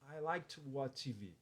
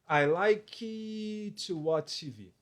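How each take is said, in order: First: It flows smoothly without any drawn-out hesitation. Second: A word is drawn out in a thinking hesitation. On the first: The speaker calls it right. "O ideal é que você pronuncie desse jeito" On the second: The speaker calls it wrong. "ele para para pensar ali o que ele vai dizer... você está alongando isso"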